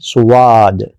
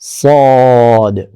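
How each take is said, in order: First: A w-sound comes between s and long a. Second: A plain long a follows s, without w. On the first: The speaker calls it wrong. "बहुत सारे लोग कैसे कहते हैं? ... इसमें वाद नहीं कहना" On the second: The speaker calls it right. "बिल्कुल मुंह सीधा रखें और अलिफ के साथ बोलें"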